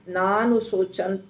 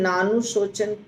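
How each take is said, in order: The two takes are said the same way.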